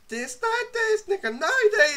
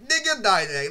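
First: High crooned lyric; sung, mock sung song lyric; sung anime opening. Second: Brother's mangled version. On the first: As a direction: sing the opening line up high. Singing One Piece opening. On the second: Retold or imitated. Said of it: "my brother's like".

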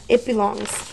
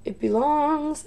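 First: Said in the usual way. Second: "It belongs" said higher and slow, drawn out; eerie ghost-box echo. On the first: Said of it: "It belongs" is the very last one". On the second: Shown as a demonstration. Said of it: "is the very last one".

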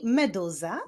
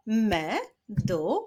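First: Said in the usual way. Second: "meduza" slowly split as me, du, za; syllable by syllable. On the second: Shown as a demonstration. Teacher leading syllable clapping, "meduza" said syllable by syllable. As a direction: sound out "meduza" in three separate beats. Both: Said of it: "Zapraszam do wyklaskiwania".

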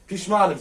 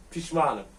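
First: Pişmanım repeated louder, with a falling tune; emphatic repeat. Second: Said in the usual way. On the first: Shown as a demonstration. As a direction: hit Pişmanım harder the second time.

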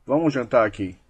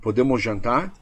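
First: Subtle command. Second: Tentative question with rising end; asking permission. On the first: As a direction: state it as settled, not as a question. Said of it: "você comanda de uma forma bem sutil". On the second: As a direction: ask it as a request, pitch rising on "jantar". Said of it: "sugestão foi uma permissão". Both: Shown as a demonstration.

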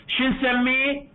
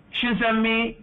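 Both takes have the same delivery.

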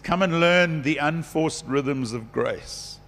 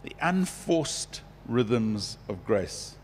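First: "Come and learn the unforced rhythms of grace" said slowly, dwelling on "learn"; a slow, savouring read of the verse, leaning on "learn"; savoured scripture. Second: "The unforced rhythms of grace" repeated very slowly and softly, stress on "unforced"; slow soft echo. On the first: Retold or imitated. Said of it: "He says". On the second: Shown as a demonstration. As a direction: softly savour "unforced" word by word. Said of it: "Beautiful, eh?".

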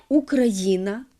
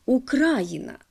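First: Україна stressed on the ї; correct stress. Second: Україна stressed on the second syllable, укрАїна; misplaced stress. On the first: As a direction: say Україна as украЇна, stress on the third syllable. (правильний наголос: УкраЇна) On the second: (помилковий наголос: УкрАїна) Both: Shown as a demonstration. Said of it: "неправильно наголошують".

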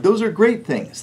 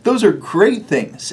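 First: „great“ hoch und betont, ganze Phrase höher; emphatic praise. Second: Said in the usual way. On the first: Shown as a demonstration. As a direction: Those are great things mit Nachdruck, „great“ hoch gesetzt.

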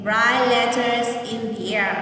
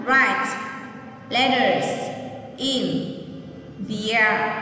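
First: "Write letters in the air" said slowly as one joined phrase; slow whole phrase. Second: "Write letters in the air" with a pause after each word; teacher spacing the words out for the class. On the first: Teacher reading the whole phrase slowly for children. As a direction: join the words together, slowly. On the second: Teacher repeating the phrase for children, word by word. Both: Shown as a demonstration. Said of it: "Nghe cô đọc lại lần nữa nhé".

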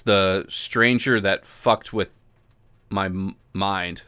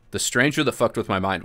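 First: Slow dramatic. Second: Said in the usual way. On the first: Shown as a demonstration.

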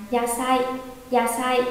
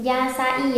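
First: "yasai" in two beats, ya-sai; linked vowels. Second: "yasai" as ya-sa-i, i on its own; separate vowels. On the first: Teacher corrects to the joined reading for students, vowels linked. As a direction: glide a into i in "yasai". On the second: Teacher offers students the wrong reading, vowels apart. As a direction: split "yasai" into three beats. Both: Shown as a demonstration. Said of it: "À không, đọc là".

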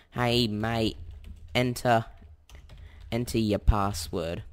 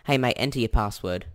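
First: Put-on slow, drawn-out broad Aussie accent; exaggerated Aussie accent. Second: Put-on quick, casual broad Aussie accent; exaggerated Aussie accent. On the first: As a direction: lay the Australian accent on thick, slowly. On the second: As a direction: toss off the line in a thick Australian accent. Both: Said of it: "exaggerated Aussie accent".

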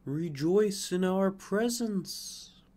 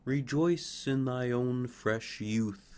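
First: Slow, higher, louder, glowing call; air and sunlight. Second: Slow, gentle, glowing; a touch of tender blessing; air and sunlight. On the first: Air and sunlight urging the fir to rejoice. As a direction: sing it out like warm light. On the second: Air and sunlight blessing the fir's youth. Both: Acted. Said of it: "said the air and the sunlight".

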